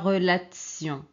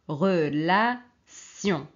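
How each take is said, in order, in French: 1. Le 'ti' se prononce avec un son 'ts'. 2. Le 'ti' se prononce avec un simple son 's'. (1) "ce n'est pas tse" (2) "c'est sion, sion"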